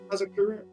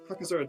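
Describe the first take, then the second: First: The second syllable begins with a z sound. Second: The second syllable begins with a k sound. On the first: The speaker calls it right. "Yeah, there you go" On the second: The speaker calls it wrong. "No. The Z comes before the K"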